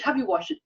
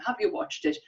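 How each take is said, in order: First: Mock nag, falling, stress on "have"; nagging question. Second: Higher pitched mock nag, "you" stressed, ending on a rise; insistent nagging. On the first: Friend nagging every dinner time, mock-impatient falling ask. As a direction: nag her with "Have you watched it?", pressing on "have". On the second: Friend nagging again at dinner, higher and rising on "you". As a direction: lean on "you" in "Have you watched it?" and let it climb upward. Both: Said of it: "Every dinner time".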